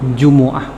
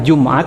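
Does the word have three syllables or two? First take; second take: three; two. First: The m is followed by a u vowel. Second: The m has no vowel after it. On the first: The cause of people gathering. "mimnya itu domah" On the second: The time or place where people gather. "Boleh disukunkan mimnya"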